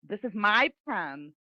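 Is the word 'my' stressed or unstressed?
stressed. The word 'my' is stressed. "if you want to focus somebody's attention on it to emphasize it, you would stress it"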